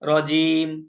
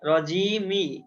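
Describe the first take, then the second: First: The word ends on the m with no vowel. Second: The word ends with a vowel after the m. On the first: The speaker calls it right. "মিমও সাকিন করে পড়তে হবে" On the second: The speaker calls it wrong. "কিন্তু রজিমি পড়া যাবে না"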